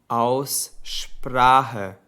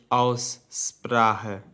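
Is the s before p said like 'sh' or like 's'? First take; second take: sh; s. First: The s before p sounds like sh. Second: The s before p sounds like s. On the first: The speaker calls it right. "wenn ein S und ein P zusammenstehen, sagen wir normalerweise Sp. Deshalb heißt es Aussprache" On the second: The speaker calls it wrong. "und nicht Aussprache"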